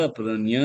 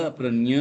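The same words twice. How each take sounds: Both takes have the same delivery.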